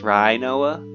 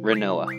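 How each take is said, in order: First: The first syllable sounds like 'rhino'. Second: The first syllable does not sound like 'rhino'. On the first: "like a rhinoceros" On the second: "that's how I'm going to pronounce it from now on"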